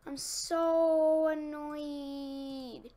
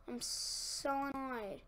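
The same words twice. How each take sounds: First: Loud, very drawn-out whine of annoyance; annoyed whine. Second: Slow, subdued grumble of annoyance; deflated annoyance. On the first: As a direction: stretch it out in loud exasperation. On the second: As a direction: drag it out, the steam gone. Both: Real, not acted.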